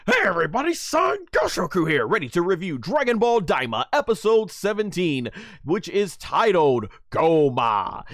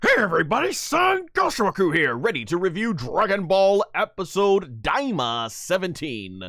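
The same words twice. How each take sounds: First: High, loud hyped host greeting; energetic intro retake. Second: High, loud hyped YouTube greeting; energetic intro. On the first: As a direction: go again with the same big opener. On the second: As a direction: open big and bright like a channel host. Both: Shown as a demonstration. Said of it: "Or let me try that over again".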